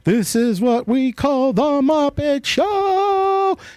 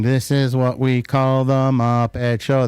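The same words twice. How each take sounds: First: It is said grandly, with a big flourish. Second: It is said plainly, without much flourish. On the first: "it became more grandiose at the end" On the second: "Instead of saying"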